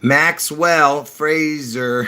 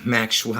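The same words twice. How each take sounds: First: "Maxwell" said slowly with a clear s; careful correction. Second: "Maxwell" slurred to "Mackshwell" with a laugh; slipped pronunciation. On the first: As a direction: spell out "Maxwell" slowly, crisp s sound. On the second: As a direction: let "Maxwell" come out as "Mackshwell" through the dentures. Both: Real, not acted. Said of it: "I keep doing it again".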